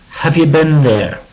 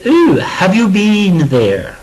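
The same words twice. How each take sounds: First: "been" short, like "bin"; American "been". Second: "been" drawn out with a long ee, like "bean"; British long "been". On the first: Teacher showing how Americans might say it, short "been". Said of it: "Americans might say". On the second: Teacher showing what British would say, long ee in "been". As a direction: stretch "Ooh" and give "been" a long double-E vowel. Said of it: "British would say". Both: Shown as a demonstration.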